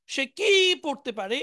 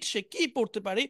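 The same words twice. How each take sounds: First: কি given weight, the line said slowly; slow model sentence leaning on কি; stress on কি. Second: Said in the usual way. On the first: Shown as a demonstration. Teacher modelling the sentence slowly for students.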